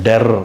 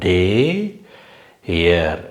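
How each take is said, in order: First: The vowel is short and clipped. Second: The vowel is long and drawn out. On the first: The speaker calls it wrong. "டெர் அப்படின்னு சொல்லக்கூடாது" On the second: The speaker calls it right. "டே ஏ அந்த மாதிரி அந்த உச்சரிப்பு இருந்தால் இன்னும் கொஞ்சம் கேட்குறதுக்கு இனிமையாக இருக்கும்"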